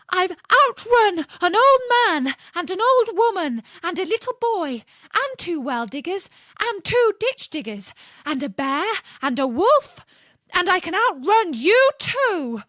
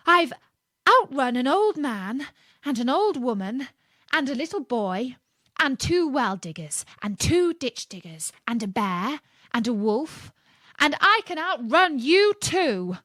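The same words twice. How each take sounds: First: Much higher, much louder screamed boast; screaming. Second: Louder, higher boastful call. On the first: Gingerbread man leaning close and screaming at the fox. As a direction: scream it right into his ear. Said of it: "screamed out". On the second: Gingerbread man boasting to the fox, calling loudly. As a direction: call it out proudly across the gap. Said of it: "called out in a very loud voice". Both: A narrator's reading.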